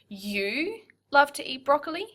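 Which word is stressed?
you. The stress falls on the word 'you'. "So the first one would be"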